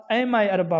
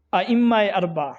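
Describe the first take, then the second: First: ائمہ flattened to "ayma", single m; common mispronunciation. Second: ائمہ as "a-imma", with an i and doubled m; careful doubled m in ائمہ; correct pronunciation. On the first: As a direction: say ائمہ اربع as "aymae arba". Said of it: "ائمہ اربع نہیں ہے بلکہ". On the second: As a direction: say ائمہ اربع as "a-immae arba". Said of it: "ائمہ اربع لفظ ہے". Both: Shown as a demonstration.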